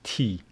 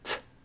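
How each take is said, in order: First: It is said as the letter name 'tee'. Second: It is said as a short bare consonant sound. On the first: The speaker calls it wrong. "We don't read it T" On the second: The speaker calls it right. "It is T"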